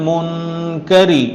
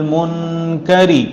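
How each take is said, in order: No difference in how they are said.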